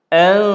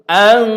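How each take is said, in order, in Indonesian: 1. Bunyi n tersembunyi dengan dengung sengau. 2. Bunyi n diucapkan dengan jelas dan tegas. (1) "kalau kita baca dengan uh, ikhfa" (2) "kalau kita baca macam izhar"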